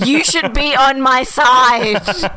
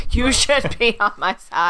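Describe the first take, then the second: First: Loud hissed whisper-yell at the wife; imitating an angry whisper, louder. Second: Said in the usual way. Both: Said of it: "the angry whisper to the wife".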